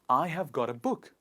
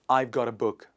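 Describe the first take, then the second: First: I have is said as two full words. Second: I have is shortened into one syllable. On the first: "The next sentence is" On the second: "I have will become one"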